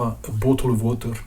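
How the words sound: It is said with a Scottish accent. "en écossais, on pourrait avoir"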